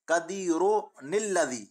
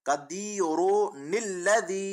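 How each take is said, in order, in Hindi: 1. शब्द 'n' ध्वनि से जुड़े हैं। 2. शब्द 'n' ध्वनि से जुड़े हैं।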